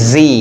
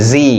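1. অক্ষরটি 'zee' হিসেবে উচ্চারিত হয়। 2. অক্ষরটি 'zee' হিসেবে উচ্চারিত হয়।

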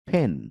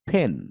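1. প্রথম ব্যঞ্জনটি aspirated p। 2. প্রথম ব্যঞ্জনটি aspirated p।

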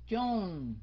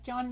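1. Cao độ đi xuống ở từ John. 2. Cao độ không đi xuống ở từ John. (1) "mà xuống" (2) "Không phải John"

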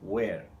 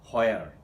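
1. শব্দটা w ধ্বনি দিয়ে শুরু। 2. শব্দটা স্পষ্ট h ধ্বনি দিয়ে শুরু। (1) "এটা আসলে হোয়ার নয়, এটা হচ্ছে ওয়ের" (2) "হুইচ ইজ রং এগেইন"

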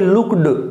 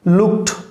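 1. यह शब्द d की आवाज़ से खत्म होता है। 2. यह शब्द t की आवाज़ से खत्म होता है। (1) "नॉट ए लुक्ड" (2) "यहां ट का साउंड देगा तो इसका प्रोनाउंसिएशन जो होगा वो लुक्ड होगा"

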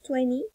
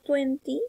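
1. Se dice con pronunciación americana. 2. Se dice con pronunciación británica. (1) "es la pronunciación americana" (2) "la pronunciación es británica"

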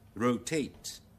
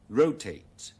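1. 重音在第二個音節上。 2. 重音在第一個音節上。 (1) "將那個重音放在第二個音節那裡" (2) "美語將那個重音全部放在第一個音節那裡"

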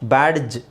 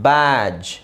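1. j ಶಬ್ದಕ್ಕಿಂತ ಮೊದಲು ಪ್ರತ್ಯೇಕ d ಕೇಳಿಸುತ್ತೆ. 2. d silent ಆಗಿರುತ್ತೆ, j ಶಬ್ದ ಮಾತ್ರ ಕೇಳಿಸುತ್ತೆ. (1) "ಬ್ಯಾಡ್ಜ್ ಅಂತ ಹೇಳೋ ಅವಶ್ಯಕತೆ ಇಲ್ಲ"

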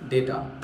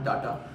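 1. पहला स्वर 'ay' ध्वनि है। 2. पहला स्वर खुला 'ah' ध्वनि है। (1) "right pronunciation of डाटा is डेटा" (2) "not डाटा"

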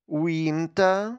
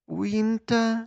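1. Слово сказано помірною гучністю. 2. Слово сказано тихо. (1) "Тихіше" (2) "тихіше"

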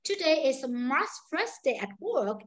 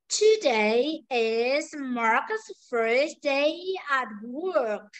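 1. Câu này được nói với tốc độ nhanh. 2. Câu này được nói với tốc độ chậm. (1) "ví dụ câu nói nhanh này" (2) "Nhưng bây giờ câu nói chậm này"

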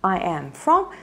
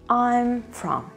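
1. 'I am' произносится как два полных слова. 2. 'I am' сокращается до одного слога. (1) "либо I am from" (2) "Можно сокращенно"

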